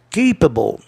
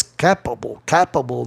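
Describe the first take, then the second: First: "capable" as KAY-puh-bul, long A; accepted pronunciation. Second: "capable" as KAP-uh-bul, short open A; rejected pronunciation. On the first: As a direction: say "capable" with AY in the stressed first syllable. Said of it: "fosse pronunciado E". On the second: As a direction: mispronounce "capable" with the A of cap, falling and lower. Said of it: "não ia pegar legal". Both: Shown as a demonstration.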